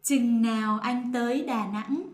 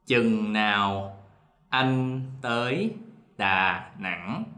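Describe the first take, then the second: First: Standard northern Vietnamese pronunciation. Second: Slow, careful southern Vietnamese reading; southern Vietnamese dialect. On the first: Partner answering in northern Vietnamese standard. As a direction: say it the Hanoi northern way. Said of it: "me will say it in the non-dialect". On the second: Teacher demoing the southern Vietnamese dialect, slowly. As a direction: read it in the Saigon southern accent, word by word. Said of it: "I'm gonna read, uh, the sentence in our dialect first". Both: Shown as a demonstration.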